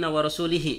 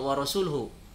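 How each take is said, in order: First: The ending has an i vowel after l. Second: The ending has a u vowel after l. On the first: God disowns the idolaters and the messenger too. The speaker calls it wrong. "mengkasrohkan lamnya lafaz Rasulullah" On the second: God and the messenger both disown the idolaters. The speaker calls it right. "harusnya wa rasuluhu"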